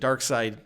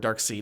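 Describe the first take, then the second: First: The second part sounds like the word 'side'. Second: The second part sounds like the word 'seed'. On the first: "Dark Side or Dark Seed. I don't know how to pronounce it" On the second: "Is it Seed?"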